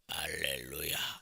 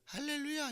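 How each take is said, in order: First: It is said in a put-on, holy-sounding voice. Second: It is said in a plain, ordinary voice.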